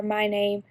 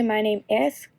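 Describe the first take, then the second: First: Said in the usual way. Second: "My name is." with a rise on "is"; wrong way, full grammar. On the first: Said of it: "You don't say, "My name is". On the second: Shown as a demonstration. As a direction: stress the "is" in "My name is." with a lift. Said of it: "You don't say".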